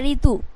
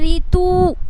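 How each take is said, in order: First: The final vowel is short and light. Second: The final vowel is drawn out long. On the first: The speaker calls it right. "खींच के नहीं हो रहा है ... हल्का सा रीतु" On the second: The speaker calls it wrong. "आप ऐसे बोलते रीतु, ऐसे बोलते हैं, नहीं नहीं बोलते"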